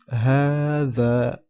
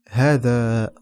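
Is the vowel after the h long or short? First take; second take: long; short. First: The vowel after the h is long. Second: The vowel after the h is short. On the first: It is the actual spoken form. The speaker calls it right. "mais on le prononce هذا" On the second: It follows the written spelling literally. The speaker calls it wrong. "Si on lit bien ici, en appliquant les règles de la langue arabe, ceci se lit هذا"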